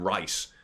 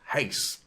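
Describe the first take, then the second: First: The name begins with an English R sound. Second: The name begins with a breathy H sound. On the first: This is how English media said it. The speaker calls it wrong. "the English mainstream media were calling him Rice" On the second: This is how a native Portuguese speaker says it. The speaker calls it right. "pronounced that correctly"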